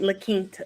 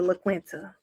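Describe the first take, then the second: First: It is said with a standard, non-Southern pronunciation. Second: It is said with a Southern American pronunciation. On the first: The speaker calls it right. "she just taught me how to pronounce it" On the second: The speaker calls it wrong. "I be calling that hotel the La Quinta"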